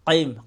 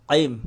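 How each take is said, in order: Both takes have the same delivery.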